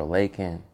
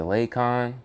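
First: "Lakin" said LAY-kin, with a short unstressed ending; Lakin pronunciation. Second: "Lakon" said LAY-kahn, with a full "ah" ending; Lakon pronunciation. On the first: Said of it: "Sani comes around and says Lakin". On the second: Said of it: "you introduced yourself to me as Lakon". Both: Shown as a demonstration.

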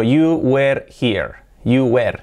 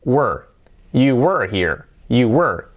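First: "were" said as Spanish-style "wer" with a clear e; mispronounced were. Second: "were" as one syllable "wur", no e, strong r; correct were. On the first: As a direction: say "were" wrongly, rhyming with "where". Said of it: "No se pronuncia "you were". ("were" mal pronunciado, con e clara, como "uer") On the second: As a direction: model "were" low and falling, vowel swallowed by the R. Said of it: "se pronuncia, atentos, es". ("were" en una sílaba, sin e, con R fuerte) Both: Shown as a demonstration.

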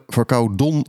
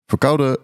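First: Nasal cold voice on verkouden; stuffy nose. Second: Stuffy nose. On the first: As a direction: verkouden said as "verkouden Don" with a blocked nose. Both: Real, not acted.

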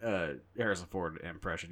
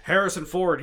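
First: Said in the usual way. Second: Higher, louder Harrison Ford voice; Harrison Ford impression. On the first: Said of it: "it's not hard to do a". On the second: Shown as a demonstration. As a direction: say his name as Ford would. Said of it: "he talks like this".

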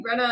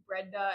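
First: "Brenna" with a plain double-n middle; name "Brenna" pronounced with only an n between the vowels; Brenna without D. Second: "Brenda" with a d after the n; name "Brenda" pronounced with nd in the middle. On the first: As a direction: say "Brenna", no d sound in it. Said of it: "You kept saying Brenna". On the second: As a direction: say "Brenda", sounding the d. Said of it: "hearing Brenda". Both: Shown as a demonstration.

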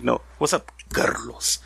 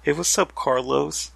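First: Carlos with a rolled R, Spanish style. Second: Said in the usual way. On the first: Shown as a demonstration. Correcting how Carlos is said, rolled R. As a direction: roll the R in Carlos. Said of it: "Roll the R". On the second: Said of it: "It's kinda like when you say".

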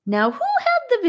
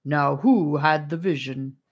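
First: Hammed-up mock deep voice, playful; a silly put-on voice with a light playful lift. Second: Brisk, businesslike, whispered; hushed and matter-of-fact. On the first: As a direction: put on a goofy, overly deep voice for fun. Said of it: "in a silly, overly deep voice". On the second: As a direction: drop the silliness and get down to business in a whisper. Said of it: "turning businesslike". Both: A narrator's reading.

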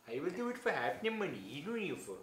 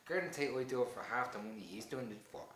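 First: Lilting, badly faked Indian accent; awful Indian accent. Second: Said in the usual way. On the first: Offering to take the actor's place, in a mock Indian accent. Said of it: "awful Indian accent".

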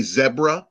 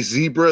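First: Zebra as ZEB-ruh; short E in zebra; British zebra. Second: Zebra as ZEE-bruh; long EE in zebra; American zebra. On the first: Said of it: "they say zebra". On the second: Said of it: "we say zebra". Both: Shown as a demonstration.

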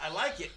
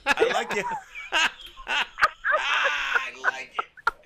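First: Said in the usual way. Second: Laughing high and loud; bursting into laughter on the words; cracking up mid-line. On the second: Real, not acted.

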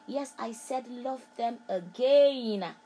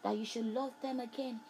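First: Slow and louder, leaning on "again"; emphatic, slowed "love them again". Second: Said in the usual way. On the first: Shown as a demonstration. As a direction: drive "love them again" home slowly.

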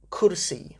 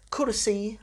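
First: Said in the usual way. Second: Kursi with a higher, stressed final ee. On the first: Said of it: "make a bit more effort". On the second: Shown as a demonstration. Teacher showing the genitive, Kursi stressed on its last vowel. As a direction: push up on the ee ending of Kursi. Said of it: "it's the E that you're stressing".

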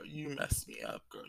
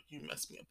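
First: Low, slow hummed-out song line; sung lyric. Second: Soft whispered repeat of the line; whispered lyric. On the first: Quoting an [name] song, low slow croon. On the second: Repeating the song line to herself, whispered. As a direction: breathe the lyric out under her breath. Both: Retold or imitated.

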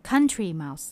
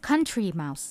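Both takes have the same delivery.

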